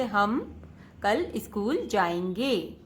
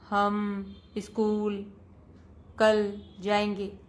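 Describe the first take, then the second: First: "हम कल school जाएंगे" read slowly as one smooth word group; phrase reading. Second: Slow, word by word, "हम school" then a pause before "कल जाएंगे"; choppy wrong reading. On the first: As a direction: read it in a single unbroken phrase. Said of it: "शब्दों के समूह के साथ पढ़ना है". (शब्दों के समूह में धीमा, सहज पठन) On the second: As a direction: read it haltingly, one word at a time. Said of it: "तो हम ऐसे ना पढ़कर". (धीमे, अटक-अटक कर शब्द-दर-शब्द पढ़ना) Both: Shown as a demonstration.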